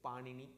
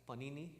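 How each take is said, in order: First: It is pronounced unlike the Italian bread name. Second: It is pronounced like the Italian bread name. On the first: The speaker calls it right. "it is Panini" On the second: The speaker calls it wrong. "please don't pronounce it as Panini, it is not a bread variety"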